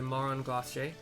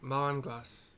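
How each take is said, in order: First: The second word sounds like 'glacier'. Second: The second word sounds like 'glass'. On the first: The speaker calls it wrong. "I'm tired of not pronouncing it right" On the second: The speaker calls it right. "Like that"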